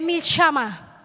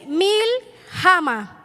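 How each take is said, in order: First: The word is said in its spoken Hebrew form. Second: The word is sounded out as it is spelled. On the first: The speaker calls it right. "Se lee Milshama" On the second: The speaker calls it wrong. "Se escribe así"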